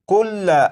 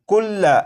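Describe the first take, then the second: The two takes are said the same way.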